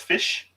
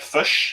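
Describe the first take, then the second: First: It is said with an Australian accent. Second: It is said with a New Zealand accent. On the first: "instead of fish" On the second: "New Zealand you get fish"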